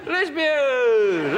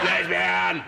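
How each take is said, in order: First: The word is said in a warm, friendly tone. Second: The word is said in a harsh, hostile tone. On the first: The remark is meant kindly. "That's nice" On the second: The remark is meant as an insult. "That's not very nice"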